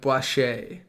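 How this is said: The name is said with exaggerated, showy flair. The speaker calls it wrong. "You're putting like too much flair on it. You're like"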